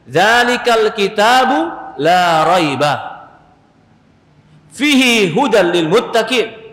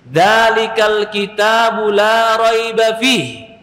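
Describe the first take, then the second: First: The pause comes after raiba. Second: The pause comes after fihi.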